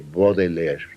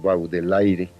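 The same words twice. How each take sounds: First: The name is said in a French-style way. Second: The name is read out as spelled in Spanish. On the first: This is how one is supposed to say it. The speaker calls it right. "se dice Baudelaire" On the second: This is how the family used to say it. The speaker calls it wrong. "Decíamos eh, Carlos Baudelaire"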